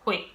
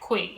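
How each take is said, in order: First: The word begins with an H sound. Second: The word begins with a K sound. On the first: The speaker calls it right. "instead of" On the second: The speaker calls it wrong. "I used to say K U I"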